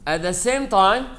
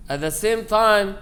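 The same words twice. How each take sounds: The two takes are said the same way.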